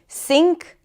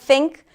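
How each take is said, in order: First: The word begins with an s sound. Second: The word begins with a th sound. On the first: The speaker calls it wrong. "or S D" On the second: The speaker calls it right. "instead of"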